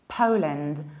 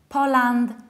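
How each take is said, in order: First: The final syllable is a reduced 'lind'. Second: The final syllable is a full 'land'. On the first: The speaker calls it right. "reducing the ending and saying lind" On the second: The speaker calls it wrong. "which is not Poland"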